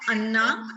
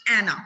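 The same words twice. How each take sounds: First: "Anna" with an open "ah" start, like UN-na; mispronounced Anna. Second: "Anna" with a short front "a", as in "cat"; corrected Anna pronunciation. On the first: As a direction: say "Anna" starting with "uh" instead of a flat "a". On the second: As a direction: say "Anna" as AN-uh, opening on the vowel of "apple". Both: Shown as a demonstration. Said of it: "It's not Anna, it's Anna".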